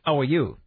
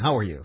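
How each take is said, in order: First: The h at the start is dropped. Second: The h at the start is pronounced. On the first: "people drop H's, like" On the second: "instead of saying"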